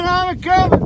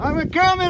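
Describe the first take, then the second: First: High, louder calling out. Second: High called line; calling out. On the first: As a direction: shout it up to them. Calls out louder. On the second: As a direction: call it out up high. Calls out near summit. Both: Real, not acted.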